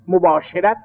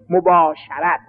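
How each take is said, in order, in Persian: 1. مصوت بعد از صدای 'sh' مثل 'e' است. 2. مصوت بعد از صدای 'sh' مثل 'a' است. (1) "مباشرت غلطه" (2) "شین هم فتحه دارد"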